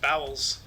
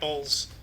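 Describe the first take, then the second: First: The name sounds like the word 'bowels'. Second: The name sounds like 'boles', rhyming with holes. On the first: The speaker calls it wrong. "I thought it was pronounced Bowels" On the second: The speaker calls it right. "So you're right, Bowles"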